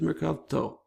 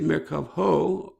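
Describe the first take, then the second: First: The ending is pronounced with a t sound. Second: The ending is pronounced with an h sound. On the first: The speaker calls it right. "the hay becomes a tav" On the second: The speaker calls it wrong. "it doesn't sound right to say Merkavho"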